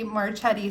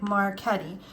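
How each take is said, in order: First: The name is said with an anglicized pronunciation. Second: The name is said with Italian pronunciation, hard k. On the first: "I hear a lot of people say Marchetti" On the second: "in Italian, the C H E, we pronounce Chetti, like Marchetti"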